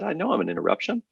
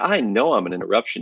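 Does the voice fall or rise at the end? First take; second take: rise; fall. First: The voice rises at the end. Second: The voice falls at the end. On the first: The caller sounds uncertain. The speaker calls it wrong. "your voice went up when you said, ... You sounded uncertain" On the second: The caller sounds sure of themselves. The speaker calls it right. "You didn't say it like that"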